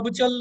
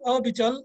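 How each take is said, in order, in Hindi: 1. शब्द बिना किसी विराम के सीधा चलता है। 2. पहले स्वर के बाद हल्का सा विराम आता है। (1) "नहीं करना" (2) "ਐੜਾ ਦੇ ਨਾਲ ਥੋੜਾ ਜਿਹਾ ਰੋਕ ਕੇ"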